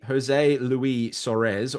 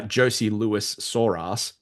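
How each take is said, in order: First: "Jose Luis Soares" slowly, as a Spanish name; careful name pronunciation. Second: "Josie Lewis Soras" slowly, as anglicised English names; mock mispronunciation. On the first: Shown as a demonstration. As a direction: say "Jose" as ho-ZAY and "Luis" as loo-EE. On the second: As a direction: imitate a friend saying "Josie" as JOE-see and "Lewis" as LOO-iss. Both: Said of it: "or as Hunter would say".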